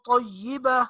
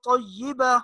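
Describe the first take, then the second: The two takes are said the same way.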